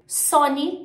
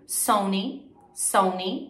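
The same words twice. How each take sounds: First: "Sony" as "SÔ-ni", higher; pure O in "Sony"; Portuguese-style "Sony"; Brazilian pronunciation. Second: "Sony" as "SOH-nee" with gliding O; two English repeats of "Sony"; English pronunciation. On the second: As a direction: model English "Sony", rising. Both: Shown as a demonstration. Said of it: "super parecido".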